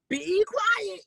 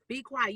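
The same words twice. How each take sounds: First: The line is spoken with strong, committed energy. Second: The line is spoken plainly with little energy. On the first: The actor owns the line. The speaker calls it right. "you take that and you make it yours" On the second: The actor just reads the line. The speaker calls it wrong. "you don't say"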